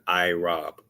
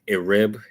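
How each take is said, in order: First: The word starts with an 'eye' sound. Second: The word starts with an 'eh' vowel. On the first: This is the proper form of the word. The speaker calls it right. "the proper way to pronounce that would be to take out the vowels" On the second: This is the vowel-imposed form of the word. The speaker calls it wrong. "that's a clear indication that that's the vowel imposed Hebrew"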